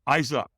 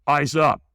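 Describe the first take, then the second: First: Said in the usual way. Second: Brisk, louder mock command; lightly voiced trainer calling out; trainer's command. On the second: Trainer corrects man staring at coals, firm command. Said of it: "the trainer goes".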